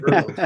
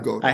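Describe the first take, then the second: First: The first vowel sounds like 'er'. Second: The first vowel sounds like 'oh'. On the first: The speaker calls it right. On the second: The speaker calls it wrong.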